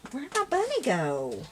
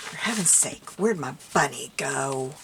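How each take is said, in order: First: High, drawn-out plaintive cry; dismayed wail. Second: Loud exasperated grumble; louder, fed up with the search. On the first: Crafter to herself, bunny gone missing, dismayed wail. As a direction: wail it high, falling away at the end. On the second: Crafter to herself, hunting the bunny, exasperated. Still searching, losing patience. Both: Real, not acted.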